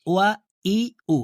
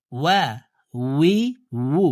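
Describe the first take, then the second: First: "ওয়া, ই, উ" as bare vowels with no w; mistaken hamza for waw. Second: "ওয়া, উই, উ" with a full w from rounded lips; rounded-lip waw. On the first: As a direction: demonstrate the error, starting "ওয়া, ই, উ" like hamza. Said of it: "এভাবে পড়ে থাকি". ("ওয়া, ই, উ" হামজার মতো ভুল উচ্চারণ) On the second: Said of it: "ঠোঁট গোল করে". ("ওয়া, উই, উ" ঠোঁট গোল করে) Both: Shown as a demonstration.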